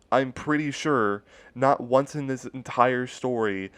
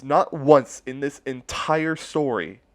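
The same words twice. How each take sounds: First: Said in the usual way. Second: "not once" stretched out slowly and higher; emphatic. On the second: Real, not acted. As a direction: drag out "not once" in disbelief.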